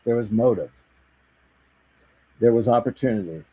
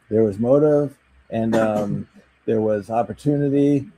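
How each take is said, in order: First: The phrases are separated by clean silent pauses. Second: The phrases are joined by filler sounds like 'um'. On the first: The speaker calls it right. "she really emphasizes on the pauses" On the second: The speaker calls it wrong. "Instead of saying"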